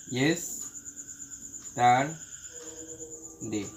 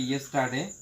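First: yesterday in three widely separated parts, very slow; broken into syllables. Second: Said in the usual way. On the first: Shown as a demonstration. Teacher breaking a word for students, yesterday syllable by syllable. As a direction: split yesterday into yes, tar, day with long pauses. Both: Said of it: "ইয়েস্টারডেকে ভাঙলে".

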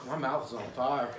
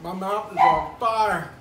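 First: Half-laughing, mouth burning; laughing through the burn. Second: Loud, slow cry of burning pain. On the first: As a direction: laugh it out while the mouth burns. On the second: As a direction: drag it out loud and pained. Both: Real, not acted.

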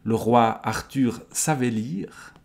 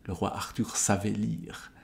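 First: Projected, slow reading of the line; unhurried storyteller's delivery; story narration. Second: Softer, offhand repeat to oneself; soft commentator's aside; musing aside. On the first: A narrator's reading. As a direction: read it out as part of the tale. Reading, before commenting on it. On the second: Real, not acted. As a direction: drop out of the reading and muse quietly. Intéressant comme remarque.

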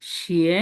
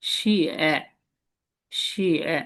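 First: শিয়ে rising upward, second tone; second tone xie. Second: শিয়ে dipping low then falling, third tone; third tone xie. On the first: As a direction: lift শিয়ে up at the end. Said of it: "second টোনটা কি হবে". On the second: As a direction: let শিয়ে sink low. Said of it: "তিন নম্বর টোনটা হচ্ছে". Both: Shown as a demonstration.

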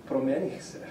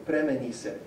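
First: "Promenise" with the stress moved off the first syllable; shifted stress. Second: "Premenise" stressed on its first syllable, as a command. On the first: Lecturer quoting the past-tense answer, "Promenise" with shifted stress. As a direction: move the accent later, onto "me" or "ni" in "Promenise". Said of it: "where he shifts the stress back". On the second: Lecturer quoting the order to get dressed, "Premenise" stressed at the start. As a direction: put the accent on "Pre" in "Premenise". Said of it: "it's on that very first syllable". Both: Shown as a demonstration.

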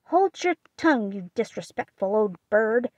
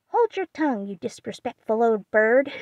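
First: Put-on scolding old aunt. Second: Parrot mimicking. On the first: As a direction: scold the bird. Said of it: "Aunt March scolds parrot". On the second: Polly echoing Aunt March, a parrot's cry. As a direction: mimic the old lady like a parrot. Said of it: "cried Polly".

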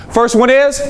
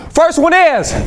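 First: Said in the usual way. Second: First one is thrown high with big energy; energized call-out. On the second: Shown as a demonstration. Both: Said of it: "I need to say it like this".

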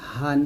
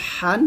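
First: হান with an easy, unpressed h; normal hā. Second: হান with h squeezed in the throat; pressed ḥā. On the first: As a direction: let হান out with a relaxed throat. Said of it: "এটা normally বলতে হবে". (হান normally) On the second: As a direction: push the h of হান hard through a tight throat. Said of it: "এটা চাপ দিয়ে বলতে হবে". (হান চাপ দিয়ে) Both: Shown as a demonstration.

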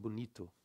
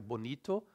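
First: Bonito said softly as "bunitu"; Brazilian pronunciation. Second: Bonito with clear o vowels; as written. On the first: Teacher showing O becomes U, soft "bunitu" for bonito. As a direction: turn the o's of bonito into u. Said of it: "but we pronounce it bonito". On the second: Teacher showing the spelling, bonito with a final o. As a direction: say both o's in bonito as o. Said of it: "write the bonito". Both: Shown as a demonstration.

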